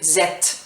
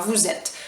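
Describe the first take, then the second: First: Vous is dropped, leaving only a z sound. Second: Vous is said fully, linked to êtes. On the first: This is a very casual, familiar form. "de manière très familière, là, on va dire zette" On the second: This is the ordinary everyday form. "on fait une liaison, hein"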